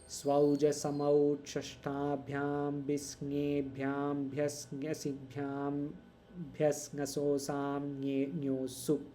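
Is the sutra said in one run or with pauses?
one run. The sutra is said in one unbroken run.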